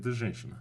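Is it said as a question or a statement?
statement. It is said with a statement tune. Stating that this is a woman. "And I said, да"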